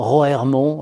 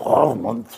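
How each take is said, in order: First: The name is said with a French pronunciation. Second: The name is said with a Dutch pronunciation. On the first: This is how the speaker himself says it. "alors je prononce euh, tranquillement" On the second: This is how the locals say it. "alors ils disent"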